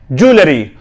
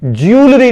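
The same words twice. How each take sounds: First: ज्वेलरी as "joo-le-ree", no y glide; three syllables in ज्वेलरी, opening "joo"; correct pronunciation. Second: ज्वेलरी as "jyool-ree", higher; y glide after j in ज्वेलरी, two syllables; wrong pronunciation. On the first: Teacher assembles the word for learners, correct pronunciation. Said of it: "correct pronunciation". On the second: Teacher rules this reading out, wrong pronunciation. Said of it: "ज्वेलरी नहीं है". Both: Shown as a demonstration.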